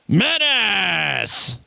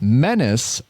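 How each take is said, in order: First: The word is said loudly and very forcefully. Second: The word gets only mild extra emphasis. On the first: "or should I do it more?" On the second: "Am I putting emphasis on the word menace enough"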